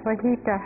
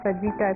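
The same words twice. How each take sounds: First: The middle consonant is an H sound. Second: The middle consonant is an English J sound. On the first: The speaker calls it right. "It's ஃபஜிட்டா ஹா" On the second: The speaker calls it wrong. "It's not ஃபஜிட்டா"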